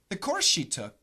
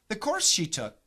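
Both takes have the same delivery.

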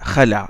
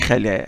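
First: The final vowel is a plain open a. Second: The final vowel is tilted toward e. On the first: The speaker calls it right. "ils l'ont prononcé alif" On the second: The speaker calls it wrong. "Ils n'ont pas dit khala"

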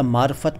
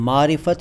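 First: No vowel is heard after the r. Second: A short i vowel is heard after the r. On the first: "या मारफत बोल लीजिए" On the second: "simply मारिफत या मारफत बोल लीजिए"

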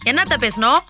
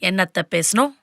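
First: It is spoken loudly. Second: It is spoken at a moderate volume. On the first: "சவுண்ட குறை" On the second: "இன்னும் குறை"

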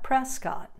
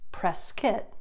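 First: It uses a non-local, outsider pronunciation. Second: It uses the local Arizona pronunciation. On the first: The speaker is not from Arizona. The speaker calls it wrong. "not Prescott" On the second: The speaker is from Arizona. The speaker calls it right. "which is pronounced Prescott"

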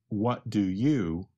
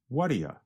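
First: The three words are said fully and separately. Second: The three words are run together into one short chunk. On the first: "We change the three words" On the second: "to what do you when we speak quickly"

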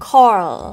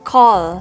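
First: The final L sound is weak and unclear. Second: The final L sound is clear and full. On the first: The speaker calls it wrong. "อุ้ยเกือบถูกแล้วนะคะเป็นสีส้มแบบนี้ ... แต่ตัว l เนี่ยเป็นสีส้มหมายความว่าเกือบถูก" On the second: The speaker calls it right. "97% สีเขียวยอดเยี่ยม"

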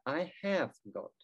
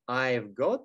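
First: The verb is said as a full word. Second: The verb is contracted onto 'I'. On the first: "расшифровки" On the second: "Сокращение"

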